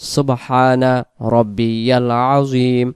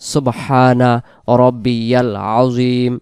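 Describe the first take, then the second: First: Every syllable is pronounced fully and distinctly. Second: The same.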